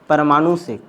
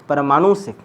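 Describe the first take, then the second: The two takes are said the same way.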